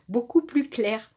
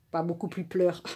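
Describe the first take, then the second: First: "plus clair" said right through a small laugh; laughing correction. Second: "pleur" repeated quietly as the slipped word instead of "plus clair"; mocking her own slip. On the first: Reader corrects her slip to viewers with a laugh. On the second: Reader quietly mocks her own slip, saying "pleur". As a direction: softly echo the wrong word "pleur". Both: Shown as a demonstration.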